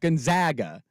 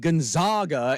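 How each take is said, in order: First: The middle vowel sounds like the 'a' in rag. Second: The middle vowel sounds like the 'a' in father. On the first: The speaker calls it right. "how do you say R A G? Rag?" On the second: The speaker calls it wrong. "why would it be Gonzaga"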